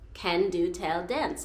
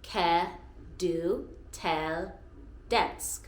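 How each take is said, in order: First: The first word is said with an N sound. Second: The first word is said without an N sound. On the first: The speaker calls it wrong. "When I say it quickly, I just want to say" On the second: The speaker calls it right. "in a sentence, you don't say the N"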